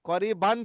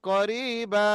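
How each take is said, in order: First: The word ends with an n sound. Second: The word ends with a drawn-out vowel. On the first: This is the written form with the ending. "করিবান ছিল" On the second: This is how it is read when stopping at the verse end. "ওটা হবে করিবা, একালিপ পরিমাণ টান দিয়ে পড়বো"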